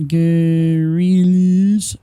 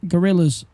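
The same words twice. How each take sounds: First: "guerrillas" stretched very slowly and loudly; loud, long-drawn "guerrillas"; drawn-out pronunciation. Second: Said in the usual way. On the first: Real, not acted. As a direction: sound out "guerrillas" in long, held syllables. Sounding out an unsure word. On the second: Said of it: "I'm gonna say guerrillas".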